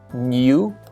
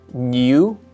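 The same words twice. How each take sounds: The two takes are said the same way.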